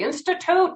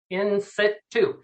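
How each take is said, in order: First: It is said like the word institute. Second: It is said as two words, in situ. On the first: The speaker calls it wrong. "they cannot pronounce it. They say institute" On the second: The speaker calls it right. "no, in situ"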